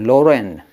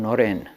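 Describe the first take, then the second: First: The name begins with an L sound. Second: The name begins with an N sound. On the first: The speaker cannot manage the N sound. The speaker calls it wrong. "So he said Loren. He couldn't do Noren" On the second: This is the usual way the name is said. The speaker calls it right. "Narendra was called Noren in Bengal"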